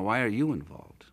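The stress is on the word you.

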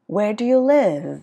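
The voice falls at the end. The speaker calls it right. "cuối thường ngữ điệu đi xuống"

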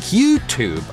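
It is said in an American accent. "in modern American English"

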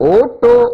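The word begins with a rounded 'oo' vowel. This is how Eelam Tamils say it. "அதே ஈழத்தமிழர்கள் ஓட்டோ என்பார்கள்"

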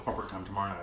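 The phrase is spoken in a whisper. The speaker calls it wrong. "Why are you whispering that?"

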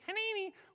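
It is said in a weird little kid's voice.

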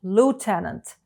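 It is said with an American English pronunciation. "в American English"

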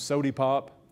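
The first word ends in an 'ee' sound.

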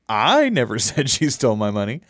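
The stress is on the word 'I'. Someone else said it.

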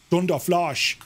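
It is said in an imitated German accent. "the German pronunciation of thunder tended to be thunder, and flash was flosh"

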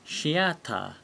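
It begins with an sh sound. "because there's no TH sound in Japanese"

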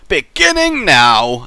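It is said with a distinctive, marked intonation.

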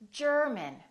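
The R is pronounced, with a strong tongue curl. This is the American way. "Americans would say German"

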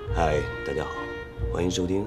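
It is spoken in a deep, solemn, dramatic voice. "声音弄得深沉一点啊"

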